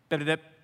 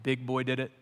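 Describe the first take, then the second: First: It is mumbled fast and unclearly. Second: It is spoken slowly and clearly. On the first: "Mumbles begins to confess, and he says this" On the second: "he plays it real slow"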